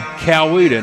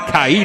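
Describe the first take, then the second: First: The name is said with all three syllables. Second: The name is said shortened to two syllables.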